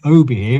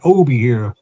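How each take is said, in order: First: Said in the usual way. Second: Put-on light country Wiltshire accent; a hint of old Wiltshire country burr. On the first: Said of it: "it weren't just plain Obi here". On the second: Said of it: "that sort of accent".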